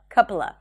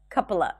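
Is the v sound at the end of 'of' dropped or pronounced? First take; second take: dropped; dropped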